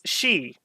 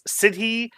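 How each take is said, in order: First: The word is said as one syllable, 'she'. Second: The word is said with two syllables. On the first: The speaker calls it right. "It's she, as in banshee" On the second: The speaker calls it wrong. "I think I was pronouncing this uh, Sidhi"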